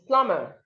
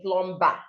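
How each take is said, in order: First: No b sound is heard after the m. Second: A b sound is heard after the m. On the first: The speaker calls it right. "The B here is silent" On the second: The speaker calls it wrong. "so you do not say plumber"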